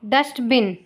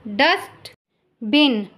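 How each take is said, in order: First: Said in the usual way. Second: Slow, stretched dustbin; slow careful model word. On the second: Shown as a demonstration. Teacher modelling dustbin slowly for listening pupils. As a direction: draw out dustbin for the class. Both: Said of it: "listen to your teacher say the following words".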